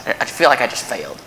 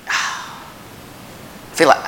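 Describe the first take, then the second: First: Said in the usual way. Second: Unvoiced sigh of defeat; weary sighing whisper. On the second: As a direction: breathe it out like you failed. Sigh of feeling like a failure.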